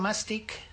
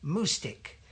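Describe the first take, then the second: First: The first syllable sounds like 'ma'. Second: The first syllable sounds like 'moo'. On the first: The speaker calls it wrong. "It's not mastic" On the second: The speaker calls it right. "it's moo like a cow"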